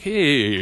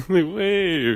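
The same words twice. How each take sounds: First: Sung, sudden high, louder "Hey"; sung, blast it up high like a diva; imitating high singing. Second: Much higher blasted "Hey"; mock diva whistle note. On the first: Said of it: "when you hear a chick sing".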